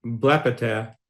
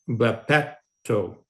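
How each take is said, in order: First: "blepeter" as the form not to use, end unstressed; wrong form contrasted. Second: Slow "blepeto" with the accent on the last syllable; stress moved to the end. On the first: Teacher contrasting the ending, saying the wrong form first. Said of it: "en vez de". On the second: Teacher showing the corrected form, slowly stressing the end. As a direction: drag out "blepeto", long final o stressed. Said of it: "ese verbo termina en omega". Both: Shown as a demonstration.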